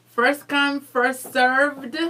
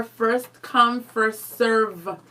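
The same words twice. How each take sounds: First: "served" drawn out with a clear final D. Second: "serve" drawn out, ending on V; slow "serve", leaving off any d. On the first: Asking the viewers to choose, "served" with final D. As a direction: land firmly on the d of "served". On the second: Asking the viewers to choose, "serve" without final D. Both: Shown as a demonstration. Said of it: "What is it, guys?".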